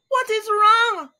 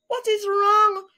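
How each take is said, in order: First: Crying out. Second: High alarmed wife's voice; worried cry. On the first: Missus Alligator calling to her husband, high crying shout. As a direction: shout it in real distress. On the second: Missus Alligator hears her husband cry out, high alarmed question. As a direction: ask in a rising panic, much higher. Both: Acted. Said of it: "cried Missus Alligator".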